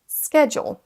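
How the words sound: The word begins with an sk sound. "l'accent U S. ... vous entendez un son sk"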